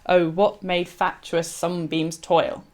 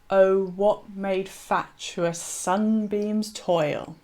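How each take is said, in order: First: The line is read quickly. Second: The line is read slowly with stretched sounds. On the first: The line sounds crammed into the meter. The speaker calls it wrong. "you don't want to read it quickly, as I just did" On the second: The line fits the meter without sounding forced. The speaker calls it right. "You want to slow down... you can read it as tetrameter if you say"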